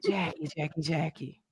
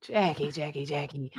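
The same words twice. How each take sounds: First: Low, soft churchy impression; Evangelist Val voice. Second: Low, soft cat call. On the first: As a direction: call her name like a gentle preacher lady. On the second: Pretend. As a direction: coax it out like a purring cat. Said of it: "In my cat voice".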